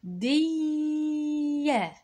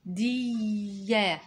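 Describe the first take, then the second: First: Sung, جندية high and held very long; sung-out dictation. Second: جندية drawn out very slowly; slow dictation. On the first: (sung, جندية بصوت عالي ممدود) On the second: (جندية ببطء للإملاء) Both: Shown as a demonstration. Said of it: "اكتب معايا".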